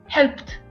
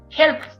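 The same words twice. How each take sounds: First: The ending is a t sound. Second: The ending is not a t sound. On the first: The speaker calls it right. "pronuncio helped con T" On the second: The speaker calls it wrong. "no pronuncio helped"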